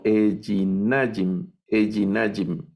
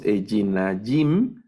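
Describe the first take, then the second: First: Ejinajim said slowly, stressing -NA-, falling; stress on penultimate syllable. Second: Ejinajim stressed on final -JIM, rising; wrong stress. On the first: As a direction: lean on the -na- in ejinajim. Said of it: "palabras que son milel". (ejinajim con acento en la penúltima sílaba) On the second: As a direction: push the stress to the end of ejinajim. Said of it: "No leemos ejinajim". (ejinajim mal acentuado, en la última sílaba) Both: Shown as a demonstration.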